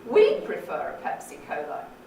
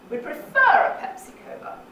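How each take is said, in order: First: The main fall is on the word we'd. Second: The main fall is on the word prefer. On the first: "We'd, absolutely" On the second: "On the second syllable of prefer"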